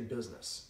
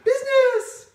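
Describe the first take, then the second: First: The word is said in a normal tone. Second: The word is said in an exaggerated tone. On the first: The speaker calls it right. "Say it in a normal tone of voice" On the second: The speaker calls it wrong. "don't say business"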